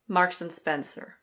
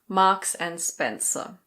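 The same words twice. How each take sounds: First: The R sounds are pronounced. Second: The R sounds are not pronounced.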